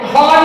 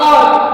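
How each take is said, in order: First: It begins with an h sound. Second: It begins directly with the vowel. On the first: The speaker calls it wrong. "हॉर नहीं बोलेंगे इसको" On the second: The speaker calls it right. "यहां पे ऑ करके बोलते हैं"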